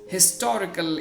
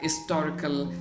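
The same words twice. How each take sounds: First: The word begins with a clear h sound. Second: The word begins with a vowel sound, no h. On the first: This is the current way of saying it. The speaker calls it right. "historical is pronounced with the h sound" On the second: This was the older way of saying it. The speaker calls it wrong. "was pronounced as historical with a vowel sound there"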